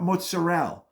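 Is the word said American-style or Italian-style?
American. The word is said in a clipped Americanized way. The speaker calls it wrong.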